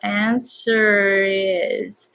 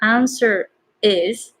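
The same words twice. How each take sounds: First: The two words are linked smoothly together. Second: The two words are said separately. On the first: The speaker calls it right. "but answer is. So R to is connecting" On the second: The speaker calls it wrong. "So not answer is"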